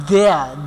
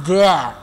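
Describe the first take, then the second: The two takes are said the same way.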